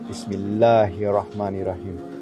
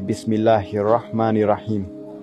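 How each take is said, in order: First: The L sound in Bismillah is held long. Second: The L sound in Bismillah is short. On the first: The speaker calls it right. "I have to prolong the L" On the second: The speaker calls it wrong. "Before I would just say"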